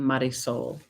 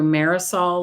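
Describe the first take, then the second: First: The ending does not rhyme with aerosol. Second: The ending rhymes with aerosol. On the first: This is the intended name. The speaker calls it right. "I love the name Marisol" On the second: Other people would have said it this way. The speaker calls it wrong. "people would have called her Marisol like aerosol"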